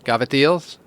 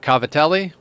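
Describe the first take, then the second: First: The word is pronounced with American sounds. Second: The word is pronounced with Italian sounds. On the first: "the American way" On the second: "the Italian way"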